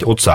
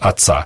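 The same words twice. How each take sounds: First: The first vowel is a full, clear o. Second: The first vowel is reduced to an a. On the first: The speaker calls it right. "ты должен читать «отца»" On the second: The speaker calls it wrong. "а не «отца»"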